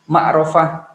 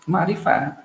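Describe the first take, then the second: First: The vowel after the r sounds like o. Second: The vowel after the r sounds like i. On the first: The speaker calls it wrong. "atau ma'rofah enggak" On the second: The speaker calls it right. "Ma'rifah, bukan"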